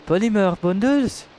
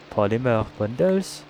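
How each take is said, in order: First: Higher, thrilled repeat; excited. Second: Said in the usual way. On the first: Real, not acted. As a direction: exclaim it with delight.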